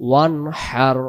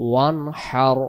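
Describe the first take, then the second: Both takes have the same delivery.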